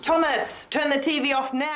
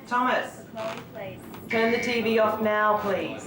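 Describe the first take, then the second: First: It is said loudly and angrily. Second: It is said at a calm, normal volume.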